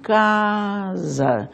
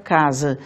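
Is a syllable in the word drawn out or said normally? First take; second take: drawn out; normal. First: One syllable of the word is noticeably prolonged. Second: The word is said with normal syllable lengths. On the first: This is how classical speakers would have said it. "eles diriam casa" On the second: This is how the word sounds today. "se nós tivéssemos a palavra casa"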